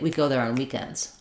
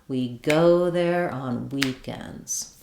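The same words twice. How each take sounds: First: It is fast, with quick unstressed words. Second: It is slow but keeps the stressed beat. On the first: "I don't have to do it that quickly" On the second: "if I slow the whole thing down"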